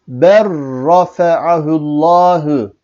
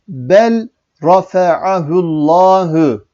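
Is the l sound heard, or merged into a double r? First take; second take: double r; l heard. First: The l merges into a doubled r sound. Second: The l is pronounced before the r. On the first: The speaker calls it right. "Okunuş şöyledir" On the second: The speaker calls it wrong. "Kur'an-ı Kerim'de bu şekilde yazılır. Fakat bu şekilde okunmaz"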